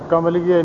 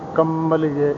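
First: The first syllable is plain, without nasal sound. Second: The first syllable is nasalized and lengthened. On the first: The speaker calls it wrong. "ਨਹੀਂ ਕਹਿਣਾ ਹੈ" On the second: The speaker calls it right. "ਟਿੱਪੀ ਉੱਪਰ ... ਸਾਵਧਾਨ ਹੋ ਕੇ ਉਚਾਰਨਾ ... ਇਉਂ ਬੋਲਣਾ"

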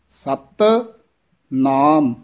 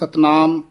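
First: The two words are said separately, first one tense. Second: The two words are run together as one. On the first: The speaker calls it right. "ਸਤ ਪਦ ਹੈ ਇਹ ਥੋੜ੍ਹਾ ਜਿਹਾ ਕੱਸ ਕੇ ਉਚਾਰਨ ਕਰਨਾ ਹੈ" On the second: The speaker calls it wrong. "ਕਈ ਇਕੱਠਾ ਹੀ ਬੋਲ ਜਾਂਦੇ ਹਨ"

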